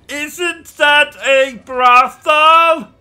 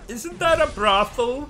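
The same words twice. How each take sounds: First: It is said louder. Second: It is said at a normal, quieter volume.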